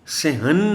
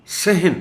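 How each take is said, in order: First: صحن said sa-han, vowel on ح; wrong pronunciation. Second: صحن high and loud, ح without vowel; correct pronunciation. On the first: Retold or imitated. Teacher shows how صحن is said wrongly. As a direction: imitate the usual wrong صحن. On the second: Shown as a demonstration. Teacher models صحن loudly for students. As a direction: call out صحن clearly. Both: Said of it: "صحن نہیں پڑھنا".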